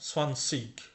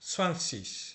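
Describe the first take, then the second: First: The word ends in a hard 'k' sound. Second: The word ends in a soft hissing 'ch'. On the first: This is how people in the north say it. "North জার্মানিতে যখন যাবেন তখন এরা সোয়ানসিক বলবে" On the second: This is how people in the south say it. "সোয়ানসিস বলবে যখন এটা সুদ ডয়েচল্যান্ডে আসবেন বা সাউথ জার্মানিতে আসবেন"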